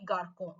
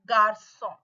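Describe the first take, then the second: First: The c is pronounced as a k sound. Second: The c is pronounced as an s sound. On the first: The speaker calls it wrong. "without accent, the pronunciation of this word will be garcon" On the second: The speaker calls it right. "if C has the exocedil under this, the sound will change to sa"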